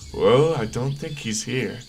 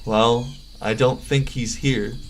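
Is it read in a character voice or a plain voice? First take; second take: character voice; plain voice. First: It is read in Alex's character voice. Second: It is read in a plain narrating voice.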